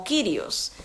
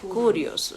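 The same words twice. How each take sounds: First: "Kyrios" read as written, with a K-Y sound; letter-by-letter reading of "Kyrios"; spelling pronunciation. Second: "kurios" said koo-ree-os; "kurios" the proper Greek way, koo-ree-os; correct pronunciation. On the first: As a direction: say "Kyrios" the way it looks on the page. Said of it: "se escribe K Y como Kyrios". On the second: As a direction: say "kurios" with an oo sound after the K. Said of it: "pero se pronuncia kurios". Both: Shown as a demonstration.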